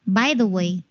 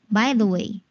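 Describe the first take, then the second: Both takes have the same delivery.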